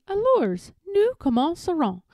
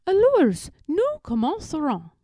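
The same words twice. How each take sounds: First: High, singsong echo; mimicking the tutor. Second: High, loud first word, falling ends; exasperated tutor. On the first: Eloise copying her French tutor, high and cheeky. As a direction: parrot the French right back. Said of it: "And I say". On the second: Tutor starting French lesson with Eloise, high and insistent. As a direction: call the pupil to French lesson. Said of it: "what makes Philip angry". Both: A narrator's reading.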